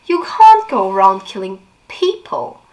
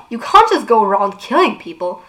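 First: Sarcastic echo with a rising end; mocking echo. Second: Raised, indignant protest; Clary protesting indignantly. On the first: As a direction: throw her words back at her. Jace mockingly echoes Clary. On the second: Acted. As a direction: object to the killing outright. Clary objects, Jace echoes.

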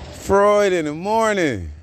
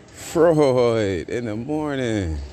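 First: Freud in the morning sung out high and loud; high excited call. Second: Drawn out. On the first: Greeting a friend on the podcast, high excited call. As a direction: shout it high like a morning radio host. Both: Shown as a demonstration. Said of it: "repeats the phrase".

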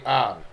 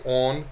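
First: "on" with an open ah vowel; imitated "on", unrounded to "ahn"; others' flattened "on". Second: "on" with a rounded aw vowel, as in "off"; "on" in a Philly-Jersey "awn"; own regional "on". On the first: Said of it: "and then they'll say". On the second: Shown as a demonstration. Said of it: "certain words weird".

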